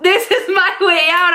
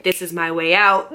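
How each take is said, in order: First: Much higher, louder, with a delighted laugh; gleeful as she sees her escape. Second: Said in the usual way. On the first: Retold or imitated. Realizing the fight frees her from the boyfriend, gleeful laugh. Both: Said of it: "I was like".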